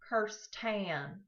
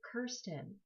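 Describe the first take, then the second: First: The name is said the Texan way. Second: The name is said the Scottish way. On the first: "in hot and humid Houston, Texas, suddenly became" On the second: "my name was pronounced the Scottish way"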